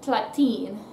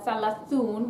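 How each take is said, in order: First: Shortened word with t sounds, ending in -in. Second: Full word with th sounds, ending in -un. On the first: "we're going to say uh" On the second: "instead of saying uh"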